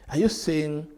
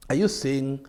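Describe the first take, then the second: No difference in how they are said.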